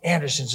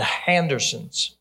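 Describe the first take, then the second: First: The name begins directly with a vowel sound. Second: The name begins with an added h sound. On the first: The speaker calls it right. "it's the Andersons" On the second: The speaker calls it wrong. "she always puts the letter H in front of words that begin with a vowel"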